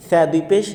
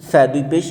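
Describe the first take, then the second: No difference in how they are said.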